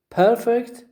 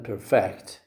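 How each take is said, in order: First: High, loud PER in perfect; stress on first syllable. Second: FECT in perfect stressed, lower voice; stress on last syllable. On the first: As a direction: punch perfect as PER-fect. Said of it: "stress on the first syllable". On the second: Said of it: "stress on the last syllable". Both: Shown as a demonstration.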